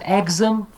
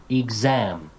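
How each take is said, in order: First: "exam" wrongly stressed on the first syllable, EX-am; high, loud EX at the start of "exam"; mispronounced stress. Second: "Exam" as ig-ZAM, stress on the second syllable; careful "Exam" landing on ZAM; correct syllable stress. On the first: Teacher quoting a common error, misplaced stress. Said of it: "commonly mispronounced". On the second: Teacher correcting a common error, second-syllable stress. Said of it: "teach them the correct pronunciation". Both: Shown as a demonstration.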